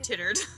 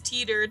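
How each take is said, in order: First: The first vowel is a short 'i' sound. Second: The first vowel is a long 'ee' sound. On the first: The speaker calls it wrong. "not tittered" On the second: The speaker calls it right. "It's teetered"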